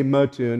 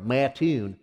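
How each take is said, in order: First: MATTOON as muh-TOON; outsiders' pronunciation. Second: MATTOON as MAT-toon, with a full first vowel; guessed Kentucky pronunciation. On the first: Mimicking what they say, Mattoon as muh-TOON. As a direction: reduce the first vowel of Mattoon to muh. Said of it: "they say Mattoon". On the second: Guessing how Kentucky says it, Mattoon with a full A. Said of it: "I wonder how they pronounce it". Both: Shown as a demonstration.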